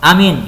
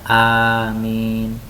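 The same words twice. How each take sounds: First: The word is said loudly and forcefully. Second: The word is said softly and gently. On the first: The speaker calls it wrong. "itu tidak baik" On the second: The speaker calls it right. "tapi pelan-pelan"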